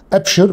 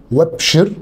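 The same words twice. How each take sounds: First: أبشر with a clear glottal stop on the first alef, a-bshir; emphatic teacher demo of أبشر with hamzat al-qat; hamza clearly cut. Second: وابشر with the hamza dropped, wa-bshar flowing straight on; teacher demo of وابشر with hamzat al-wasl; connected hamza. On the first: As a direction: say أبشر with a firm hamza at the start. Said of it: "بقطع الهمزة". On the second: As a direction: run وابشر together with no glottal stop. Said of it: "بوصل الهمزة". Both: Shown as a demonstration.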